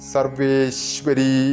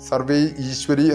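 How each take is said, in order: First: It is joined together as one word. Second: It is split into two separate words. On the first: The speaker calls it right. "കൂട്ടി ജപിക്കുമ്പോൾ സർവേശ്വരി എന്ന് തന്നെ വരുള്ളൂ" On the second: The speaker calls it wrong. "സർവേ ഈശ്വരി എന്ന് ജപിക്കാൻ പറ്റില്ല"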